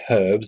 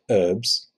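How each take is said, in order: First: The h at the start is sounded. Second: The h at the start is silent. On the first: "We say herbs ... because there's a fucking H in it" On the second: "you say herbs"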